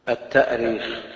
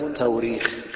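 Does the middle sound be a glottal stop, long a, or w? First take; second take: glottal stop; w sound. First: A glottal stop is heard before the long vowel. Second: A w sound is heard instead of the stop. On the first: This is the original form. "وهذا هو الأصل" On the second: This is another accepted variant. "وأيضا تقول التوريخ"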